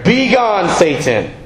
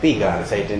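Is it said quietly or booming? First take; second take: booming; quietly. First: It is said in a loud, booming voice. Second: It is said quietly, without force.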